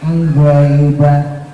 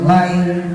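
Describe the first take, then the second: First: The word starts with a nasal lead-in sound. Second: The word starts directly on the consonant. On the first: The speaker calls it wrong. "Goknya nggak usah pakai kuda-kuda ... nggak usah" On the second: The speaker calls it right. "Gok langsung"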